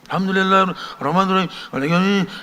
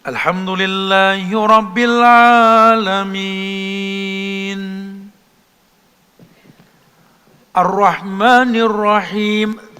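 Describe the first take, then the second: First: It is recited quickly, with no pauses. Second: It is recited slowly, with calm pauses. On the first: The reciter is hurrying without calm. The speaker calls it wrong. "ya bukan begitu" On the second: The reciter is calm and attentive. The speaker calls it right. "Dahnya tumak ninah"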